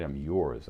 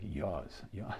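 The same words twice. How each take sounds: First: Said in the usual way. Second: Soft, R-less Boston "yours", like "yahz"; Boston accent. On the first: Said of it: "so when I say". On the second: Shown as a demonstration. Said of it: "I still get that accent".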